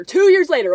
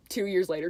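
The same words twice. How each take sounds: First: "Two years later" punched out higher and much louder; emphatic repeat. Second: Said in the usual way. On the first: Real, not acted. Stressing how long the Instagram follow lasted, emphatic "Two years later". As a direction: hit "Two years later" hard, insisting.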